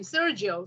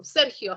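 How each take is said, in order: First: Said in the usual way. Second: "Sergio" with a Spanish throaty h for the g; Spanish pronunciation. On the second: Shown as a demonstration. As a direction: say "Sergio" the Spanish way, "SER-hio". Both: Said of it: "How do you say that in Spanish?".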